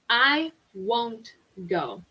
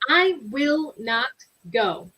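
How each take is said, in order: First: Will not is contracted into one syllable, won't. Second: Will not is said as two full words. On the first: The refusal sounds casual and natural. "The same sentence with a contraction would be" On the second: The refusal sounds formal or serious. "it would sound really formal or serious if someone says"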